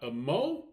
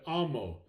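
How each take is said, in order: First: The stress is on the second syllable. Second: The stress is on the first syllable. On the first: The speaker calls it wrong. "not amo. That would be wrong" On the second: The speaker calls it right. "but amo"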